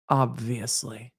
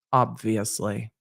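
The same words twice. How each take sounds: First: Slow, low and softer, full of disdain; disgusted Snape drawl. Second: Slow, low, disdainful drawl; Snape-like disdain. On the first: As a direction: drip contempt onto every syllable. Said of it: "flipping through my passport with disgust". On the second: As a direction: sneer it like a bored professor. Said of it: "she sounded exactly like Snape". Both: Retold or imitated.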